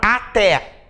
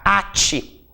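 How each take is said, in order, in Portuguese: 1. A tônica cai na segunda sílaba. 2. A tônica cai na primeira sílaba. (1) "A palavra até" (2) "se nós retirarmos o acento"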